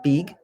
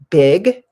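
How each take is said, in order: First: The vowel is a long ee sound. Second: The vowel is a short i sound. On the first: The speaker calls it wrong. "instead of big" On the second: The speaker calls it right. "say the short I sound. So something like big"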